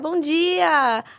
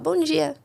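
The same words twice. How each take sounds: First: It is said in a warm, friendly way. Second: It is said in a dry, curt way.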